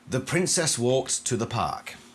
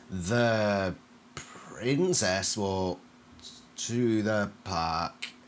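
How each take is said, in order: First: It is spoken in an ordinary, natural voice. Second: It is spoken in an unusual, unsettling voice. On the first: "that's a pretty normal diction" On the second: "it's a different diction. And it's more unsettling"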